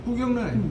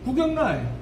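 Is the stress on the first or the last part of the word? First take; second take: first; first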